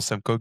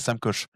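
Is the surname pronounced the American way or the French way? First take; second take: American; French. First: The surname ends in a hard k sound. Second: The surname is pronounced with French sounds. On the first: "aux États-Unis, ils aiment pas trop, donc c'est certainement [name]" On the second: "j'ai prononcé à la française"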